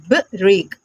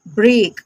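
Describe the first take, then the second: First: ब्रेक split as "buh... reek"; sounding out. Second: ब्रेक joined into one syllable; blended pronunciation. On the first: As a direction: gap after the b in ब्रेक. Teacher breaks word, then blends. (ब्रेक को "ब-रेक" तोड़कर बोलें) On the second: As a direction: run b straight into r in ब्रेक. Teacher blends the split word. (ब्रेक को एक साथ जोड़कर बोलें) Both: Shown as a demonstration.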